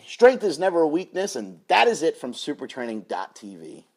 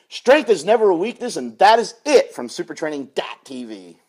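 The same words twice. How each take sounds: First: It is said with little enthusiasm. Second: It is said with more enthusiasm.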